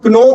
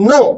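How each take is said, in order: First: Kno with an audible K before the N; K wrongly sounded. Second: No starting straight on N, drawn out; silent K. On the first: Teacher showing the mistake, kno said with its K. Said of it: "it is not kno". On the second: Teacher correcting learners, no said with silent K. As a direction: drop the K, just no. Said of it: "इसमें जो के है वो हमारा क्या होता है". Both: Shown as a demonstration.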